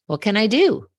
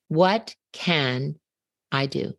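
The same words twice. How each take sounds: First: "do" stressed, higher and louder, rising at the end. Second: A realising pause splitting "What can" from "I do"; emphasis in the right place. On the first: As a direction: build "What can I do?" up to a high, loud, rising "do". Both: Shown as a demonstration. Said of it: "Until I put the emphasis in the right place".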